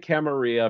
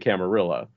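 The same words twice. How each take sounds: First: The double L is said like a Y. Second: The double L is said like an L. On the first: The word is treated as Spanish. "it's pronounced like tortilla" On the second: The word is treated as English. "But some people say Camarilla"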